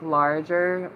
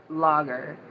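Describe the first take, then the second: First: Larger said with a clear r, like the word bigger; reading larger with the r sounded, not lager; misread larger. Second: Lager said without the r, lah-guh; lager, the beer word, no r; corrected to lager. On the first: Reading chat aloud, she says larger with the r. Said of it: "Like, lager". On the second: Correcting herself for chat, she says lager without the r. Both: Shown as a demonstration.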